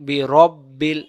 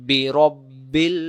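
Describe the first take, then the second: Both takes have the same delivery.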